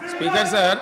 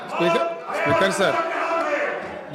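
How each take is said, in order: First: Said in the usual way. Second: Drawn-out high shout for the Speaker; slow, raised call over the noise. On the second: Real, not acted. Calling the Speaker over uproar.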